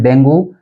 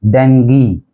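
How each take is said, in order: First: डेंगू as DENG-goo; डेंगू with a final "goo"; common mispronunciation. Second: डेंगी as DENG-gee, slowly; slow डेंगी with final "ee"; correct pronunciation. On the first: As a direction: end डेंगू on "oo". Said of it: "इसको हम भी बोल देते हैं". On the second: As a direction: end डेंगी on a hard "gee". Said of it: "इसकी जो pronunciation है". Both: Shown as a demonstration.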